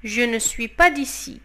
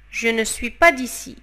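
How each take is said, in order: Both takes have the same delivery.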